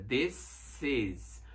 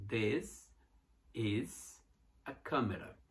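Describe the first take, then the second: First: This is with a clear voiceless s; this is, s not z; correct s sound. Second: This, is, a camera split by pauses; separated words for learners to follow. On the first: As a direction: fix it to a crisp s in this. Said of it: "não é S". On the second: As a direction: separate each word slowly. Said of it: "tudo junto". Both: Shown as a demonstration.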